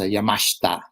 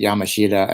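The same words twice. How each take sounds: First: The name is said with Japanese pronunciation. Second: The name is said with American-English pronunciation. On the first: This is the original form of the name. "the actual Japanese pronunciation is" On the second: This form is easier for English speakers. "sometimes people pronounce it"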